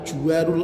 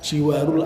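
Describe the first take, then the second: First: The first vowel is a 'u' sound. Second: The first vowel is an 'i' sound. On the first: "bisa juga didommahkan" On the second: "jimnya dikasrohkan"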